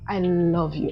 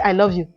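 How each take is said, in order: First: It is said with deep, heartfelt emotion. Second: It is said in a flat, casual way.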